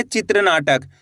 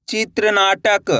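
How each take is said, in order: First: Said in the usual way. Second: चित्रनाटक drawn out slowly as one word; slow blended reading. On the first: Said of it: "कैसे पढ़ेंगे?". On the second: Shown as a demonstration. Teacher joining the letters for learners, slow and stretched. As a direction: stretch चित्रनाटक so each part is clear.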